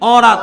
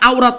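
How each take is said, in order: First: The first vowel is a plain 'o'. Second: The first vowel is a glide, 'ah-oo'. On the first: The speaker calls it right. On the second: The speaker calls it wrong. "এটা আওরাত নয়"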